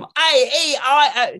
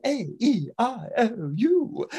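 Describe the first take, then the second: First: "A E I O" high, loud, drawn-out in Cockney; mangled Cockney vowels. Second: "A E I O U" high, slow, pure vowels; refined vowels. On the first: Flower girl before training, "A E I O" in wailing Cockney. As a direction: wail "A E I O" slowly in bad Cockney. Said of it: "She goes from". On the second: Flower girl after training, "A E I O U" carefully refined. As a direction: say "A E I O U" with careful, drawn-out elegance. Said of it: "he does transform her". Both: Acted.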